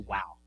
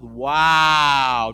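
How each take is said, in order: First: It is said quickly and plainly. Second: It is said slowly and drawn out.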